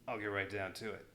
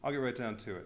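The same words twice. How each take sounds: First: It is said in a Rambo-like voice. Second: It is said in a Murdoch voice.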